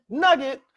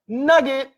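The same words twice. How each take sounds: First: High, punchy announcement; nugget callout. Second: High, loud announcement; nugget callout. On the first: Presenter flagging a key lesson, high punchy callout. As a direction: flag the lesson brightly. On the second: Presenter flagging a key lesson, high loud callout. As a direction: flag the lesson with a bang. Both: Acted. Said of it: "teaching nugget callout".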